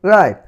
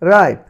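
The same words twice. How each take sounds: The two takes are said the same way.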